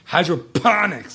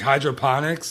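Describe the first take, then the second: First: The 'p' syllable is hit with heavy emphasis. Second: The word is said with its usual plain stress. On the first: The speaker calls it wrong. "really hit the P in hydroponics" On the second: The speaker calls it right. "like normally"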